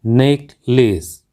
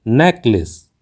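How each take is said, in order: First: नेकलेस said slowly as "nayk-lays"; common mispronunciation. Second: नेकलेस said as "NEK-lis"; correct pronunciation. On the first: Teacher shows learners the common mistake, mispronounced. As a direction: say नेकलेस slowly with two long ay vowels. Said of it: "हम अक्सर गलत बोलते हैं". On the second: Teacher gives learners the correct word, carefully pronounced. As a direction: say नेकलेस with short, open first e. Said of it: "इसका सही उच्चारण होता है". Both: Shown as a demonstration.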